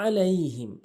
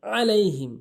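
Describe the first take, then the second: First: আলাইহিম with the ain pressed from the throat; correct pronunciation. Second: আলাইহিম with a glottal stop instead of ain; wrong pronunciation. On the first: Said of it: "সঠিক উচ্চারণ হচ্ছে". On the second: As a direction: say আলাইহিম with a plain hamza. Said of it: "আলাইহিম ভুল উচ্চারণ". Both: Shown as a demonstration.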